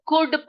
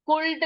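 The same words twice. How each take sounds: First: "कुड" with no L sound; silent L. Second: "कुल्ड" with the L sounded; wrong reading. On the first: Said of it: "एल यहाँ पर silent है". (सही उच्चारण "कुड", एल चुप) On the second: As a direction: pronounce "कुल्ड", L spoken aloud. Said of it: "कुल्ड नहीं पढ़ेंगे". (गलत उच्चारण "कुल्ड", एल बोलकर) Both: Shown as a demonstration.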